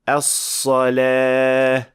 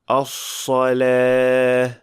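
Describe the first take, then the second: First: The s sound has a strong whistle. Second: The s sound has a weak whistle. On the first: The speaker calls it right. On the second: The speaker calls it wrong.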